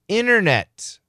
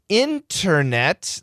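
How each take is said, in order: First: The T after the N is dropped. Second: The T after the N is pronounced.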